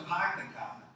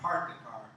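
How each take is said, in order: First: The R sounds are dropped, Boston style. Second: The R sounds are clearly pronounced. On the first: "I used to park the car" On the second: "I learned how to park the car"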